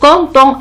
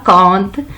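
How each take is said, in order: First: The final syllable is said as a nasal vowel. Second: The final syllable is dropped and left silent. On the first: The word is an adjective, not a verb. The speaker calls it right. "on doit le prononcer content" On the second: The word is treated like a verb ending. The speaker calls it wrong. "ce n'est pas compte"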